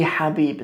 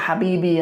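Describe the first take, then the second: First: Habib said slowly, no final vowel; slow and careful Habib, stopping on the b; correct Habib. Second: Habibi with the final i, as in my love; the wrong form Habibi. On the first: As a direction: Habib drawn out, ending clean on b. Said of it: "It's the beloved one". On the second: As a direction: say Habibi, ending on a clear i. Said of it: "It's not Habibi as in my love". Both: Shown as a demonstration.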